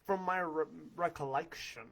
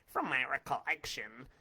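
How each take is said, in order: First: It is said in his normal voice. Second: It is said imitating Willard's voice.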